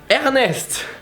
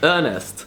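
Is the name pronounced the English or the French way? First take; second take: French; English. First: The name is pronounced the French way. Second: The name is pronounced the English way. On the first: "in French you find it in amazing words like Ernest" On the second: "when you say Ernest in English"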